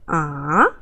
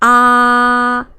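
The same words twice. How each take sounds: First: The pitch dips low, then rises again. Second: The pitch stays high and level. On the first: "go down a little bit and go up" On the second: "The first is ah, very flat"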